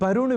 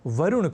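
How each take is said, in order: First: The word begins with a b sound. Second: The word begins with a v sound. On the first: The speaker calls it wrong. "वरुण भी लोग बोल जाया करते हैं" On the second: The speaker calls it right. "ऐसे ही वरुण को"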